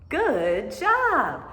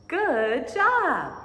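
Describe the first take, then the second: The two takes are said the same way.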